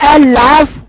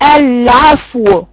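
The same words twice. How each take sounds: First: The final w sound is not heard. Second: The final w sound is clearly heard. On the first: The speaker calls it wrong. "فين الواو؟" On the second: The speaker calls it right. "لازم اقول واو"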